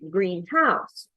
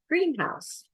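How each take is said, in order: First: The stress is on the second syllable. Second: The stress is on the first syllable. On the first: A house that is green. "adjective plus a noun, it's usually second syllable stressed ... I might live in a greenhouse" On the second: A building for growing plants. "compound noun ... it's usually first syllable struct ... it's where they have plants"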